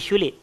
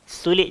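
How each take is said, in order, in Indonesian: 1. Kata ini dimulai dengan bunyi 'sh'. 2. Kata ini dimulai dengan bunyi 's' biasa.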